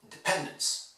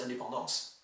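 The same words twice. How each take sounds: First: 'Independence' with PEN much stronger than the rest; English in-de-PEN-dence, third syllable dominant; English word stress. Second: French 'indépendance', all syllables evenly heard; even-syllabled French 'indépendance'; French pronunciation. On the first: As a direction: punch PEN and shrink the others in 'Independence'. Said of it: "pronounce the stressed syllable much more". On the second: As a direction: say 'indépendance' in French with nasal vowels. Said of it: "you hear all the syllables". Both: Shown as a demonstration.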